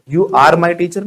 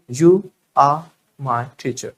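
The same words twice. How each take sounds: First: Are with a sounded R, teacher with hard T; pronounced R. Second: Very slow, are as "ah", teacher as "thee-chuh"; silent R. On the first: Teacher shows what to avoid, are with clear R. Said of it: "You are my teacher नहीं". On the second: Modelling slowly for learners, are said "ah" without R. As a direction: drop the R in are, puff the T of teacher. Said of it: "आर नहीं बोलना है ना". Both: Shown as a demonstration.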